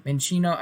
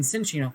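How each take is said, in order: First: "Minccino" slipped out with an M sound; wrong name. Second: "Cinccino" said correctly, starting with a "ch" sound; corrected "Cinccino", "chin-CHEE-no"; corrected name. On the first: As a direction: mistaken "Minccino", starting on M instead of the "ch" sound. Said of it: "gosh, I've done that". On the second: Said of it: "I mean". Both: Real, not acted.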